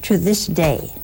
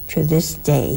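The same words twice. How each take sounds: First: "To" leaned on, the phrase falling away; emphasis on "To" in "To this day"; stress on TO. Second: Emphasis moved to "this"; stress on THIS. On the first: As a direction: open with weight on "To". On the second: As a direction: press on "this" in "to this day". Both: Shown as a demonstration.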